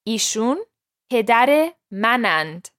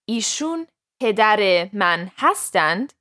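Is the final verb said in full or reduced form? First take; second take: reduced; full. First: The verb is shortened and merged with the pronoun. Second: The verb is said in its full form. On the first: This is the everyday spoken form. "gets reduced to" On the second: This is the written, formal form. "using the same rules of written Persian versus spoken Persian"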